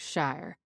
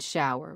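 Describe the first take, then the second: First: The word is said with one syllable. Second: The word is said with two syllables.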